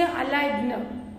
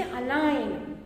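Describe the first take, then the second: First: "align" with an extra consonant, ending in "g-nuh"; G wrongly sounded. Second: Said in the usual way. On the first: Shown as a demonstration. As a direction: say "align" as a-lig-nuh, with a long I. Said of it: "You won't say align". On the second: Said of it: "You make G silent".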